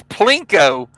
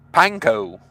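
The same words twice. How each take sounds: First: "Plinko" said with an L after the P; "Plinko", starting on a clear pl sound. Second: "Panko" set apart, no L after the P; "Panko", pan then koh, with no L; Panko without L. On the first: Retold or imitated. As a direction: say "Plinko", P and L run together. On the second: Shown as a demonstration. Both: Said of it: "there is no L".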